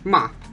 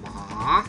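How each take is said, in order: First: The pitch falls sharply and cuts off. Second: The pitch dips down and then rises. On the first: "the last one is a falling tone" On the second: "it's a falling and rising tone"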